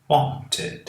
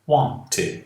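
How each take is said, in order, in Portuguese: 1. O t do meio é pronunciado como um t claro. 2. O t do meio é pronunciado como um t claro.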